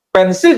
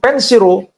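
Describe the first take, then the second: First: It ends with an l sound. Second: It ends with r plus an added vowel.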